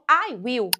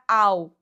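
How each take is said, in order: First: Will is said in full as separate word. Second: Will is shortened and joined to the pronoun.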